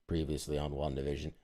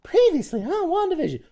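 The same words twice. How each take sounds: First: It is said in a mellow, subdued tone. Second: It is said in a bright, upbeat tone.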